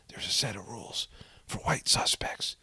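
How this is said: It is read in a whispery imitated voice.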